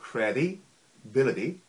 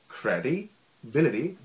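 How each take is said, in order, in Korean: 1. 이 단어는 두 덩어리로 나뉩니다. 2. 이 단어는 두 덩어리로 나뉩니다.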